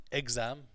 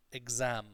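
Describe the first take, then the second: First: EXAM stressed on the first syllable; wrong stress. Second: EXAM with a stretched second syllable; correct stress. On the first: Teacher showing class the mistake, stressed on EX. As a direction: lean on EX in "exam". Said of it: "not exam". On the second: Teacher correcting the class's word, second syllable elasticated. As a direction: draw out ZAM in "exam". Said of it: "it's a little bit elasticated". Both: Shown as a demonstration.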